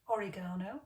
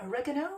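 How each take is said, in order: First: It is said with a British pronunciation. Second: It is said with an American pronunciation. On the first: "I am going to stick with our pronunciation" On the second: "as our cousins across the pond pronounce it"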